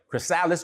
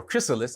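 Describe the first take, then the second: First: "chrysalis" said kruh-SAL-iss; second-syllable stress pronunciation. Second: "chrysalis" said KRISS-uh-liss; first-syllable stress pronunciation. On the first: Coach showing one of two pronunciations, "chrysalis" as kruh-SAL-iss. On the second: Coach showing the other pronunciation, "chrysalis" as KRISS-uh-liss. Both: Shown as a demonstration. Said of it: "pronounced two different ways".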